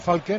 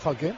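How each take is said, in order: First: The stress is on the first syllable. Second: The stress is on the last syllable. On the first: This is how the player wants to be called. The speaker calls it right. "quiere que le llamen Falque" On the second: This is how people have been calling him. The speaker calls it wrong. "no Falque"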